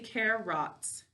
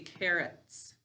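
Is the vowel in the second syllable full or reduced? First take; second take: full; reduced. First: The second syllable's vowel is said full and clear. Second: The second syllable's vowel is reduced and relaxed. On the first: It is said the way it is spelled. "to spell it, we say carrots" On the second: It is said the way people normally talk. "When we're speaking, we say carrots"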